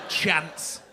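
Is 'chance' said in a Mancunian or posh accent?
Mancunian. It is said in a local Manchester accent. This is how people say it locally. The speaker calls it right. "We say chance here"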